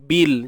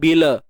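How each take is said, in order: First: The word ends cleanly on the l sound. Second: An extra vowel is added after the l. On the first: The speaker calls it right. "Bil, jangan bila" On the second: The speaker calls it wrong. "jangan bila"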